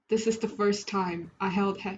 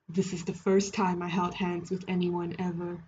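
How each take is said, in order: First: It is said in a normal voice. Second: It is said in a put-on deep voice.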